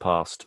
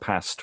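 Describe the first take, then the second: First: The vowel differs from the vowel of 'hast'. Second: The vowel matches the vowel of 'hast'. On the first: It is the usual present-day pronunciation. "rather than past" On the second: It is an older pronunciation that makes the lines rhyme. "it could have been Hast and past"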